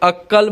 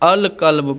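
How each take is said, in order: First: The L is dropped and the Q is doubled. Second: The L is pronounced before the Q. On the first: The speaker calls it wrong. "मैं इसको अक्कल्ब नहीं पढ़ता हूँ" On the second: The speaker calls it right. "बल्कि अल कल्ब पढ़ता हूँ"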